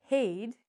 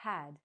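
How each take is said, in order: First: "had" with a long A, like "hayd"; wrong long vowel. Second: "had" with a short flat-A vowel, as in "cat"; correct short vowel. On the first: Teacher showing the mistake to avoid, "had" mispronounced as hayd. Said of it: "So we don't say". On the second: Teacher showing the right word, "had" with short A. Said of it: "we say". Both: Shown as a demonstration.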